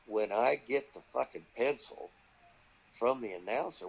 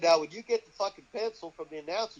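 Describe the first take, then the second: First: Baffled repeat. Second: Said in the usual way. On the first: Retold or imitated. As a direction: repeat "fucking pencil" as if it makes no sense. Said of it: "Wait a minute". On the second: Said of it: "He said".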